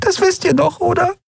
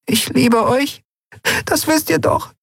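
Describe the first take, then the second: First: Fragile voice. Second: Much higher, small and fragile; a frail creature clinging to hope. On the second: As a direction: say it as if it might break. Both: Acted. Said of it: "sagte mit zerbrechlicher Stimme".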